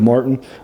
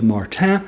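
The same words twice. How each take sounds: First: The name is pronounced the English way. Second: The name is pronounced the French way. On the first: The speaker calls it wrong. "instead of Martin" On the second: The speaker calls it right. "It's actually French, uh, so it's Martin"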